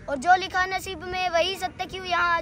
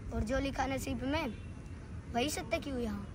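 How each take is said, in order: First: Raised, unbroken declamation; full-voiced recital. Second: Soft verse in two halves; hushed recital. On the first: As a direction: drive through the verse in full voice. Full-voiced repeat of verse. (पूरे ज़ोर से कविता पाठ) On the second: Acted. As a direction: recite it quietly with a pause midway. Soft first take of verse. (धीमे स्वर में, रुककर पाठ)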